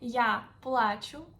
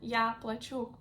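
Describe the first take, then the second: First: The stress is on the first syllable of плачу. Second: The stress is on the second syllable of плачу. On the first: The speaker is crying. "I cry" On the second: The speaker is paying. "I pay"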